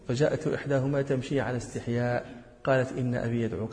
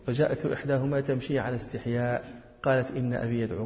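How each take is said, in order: First: The pause comes right after 'ala istihya'. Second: The same.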